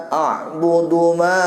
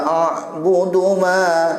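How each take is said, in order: No difference in how they are said.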